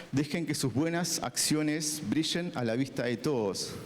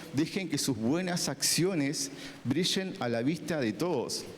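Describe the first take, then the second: No difference in how they are said.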